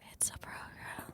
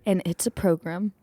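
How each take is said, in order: First: It is said in a soft whispery ASMR voice. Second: It is said in a bold radio-announcer voice.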